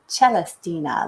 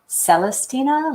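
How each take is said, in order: First: It begins with a ch sound. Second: It begins with a soft s sound. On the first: "like cello" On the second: "like celestial"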